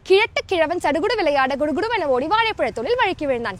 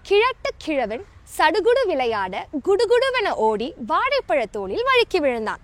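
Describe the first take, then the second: First: The sentence is spoken quickly. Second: The sentence is spoken slowly. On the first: "இப்போ இதை ஃபாஸ்டா சொல்லி practice பண்ணலாமா?" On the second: "நான் முதல்ல ஸ்லோவா சொல்லி காட்டுறேன்"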